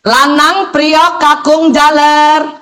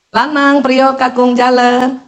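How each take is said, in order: First: The names are called at very high pitch. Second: The names are called at normal pitch.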